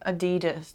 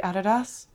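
First: The brand name is said the American way. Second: The brand name is said the German way. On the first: The speaker calls it wrong. "That's how Americans say it" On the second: The speaker calls it right. "how do Germans pronounce it? Probably Adidas"

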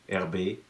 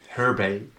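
First: The name is pronounced the French way. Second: The name is pronounced the English way. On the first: "with the French pronunciation" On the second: "How do you say that in English?"

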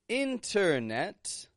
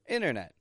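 First: Both T sounds are fully and clearly pronounced. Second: The middle T vanishes and the final T stops. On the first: The speaker calls it wrong. "I'm not saying internet" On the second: The speaker calls it right. "a quick and short internet. With a vanishing T in the middle and a stop T on the ending"

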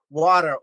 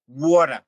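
First: It is said in a general American accent. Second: It is said in a New York accent.

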